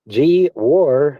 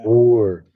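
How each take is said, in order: First: The name is said as two parts, gee war. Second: The name is said as one syllable, gore. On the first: "It says G War on my screen" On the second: "I think it's pronounced Gore"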